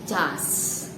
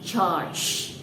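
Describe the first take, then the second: First: It is said with an Indonesian-style pronunciation. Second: It is said with an English-style pronunciation. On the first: The speaker calls it wrong. "Indonesian like me ... we say das" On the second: The speaker calls it right. "the correct pronunciation"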